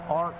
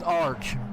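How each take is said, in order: First: The name ends with a hard k sound. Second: The name ends with a ch sound. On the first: The speaker calls it wrong. "I've been calling him Ark" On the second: The speaker calls it right. "his name is Arch"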